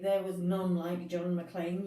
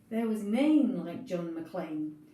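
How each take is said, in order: First: The word 'none' has a standard English vowel. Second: The word 'none' is said as Scots 'nane'. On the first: The speaker calls it wrong. "you don't say" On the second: The speaker calls it right. "you say"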